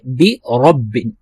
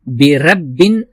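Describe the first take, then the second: First: The r is pronounced full and heavy. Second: The r is pronounced thin and light. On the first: The speaker calls it right. "उस रा को हम पुर तरीके से अदा करेंगे" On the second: The speaker calls it wrong. "बिरब्बिन नहीं पढ़ेंगे"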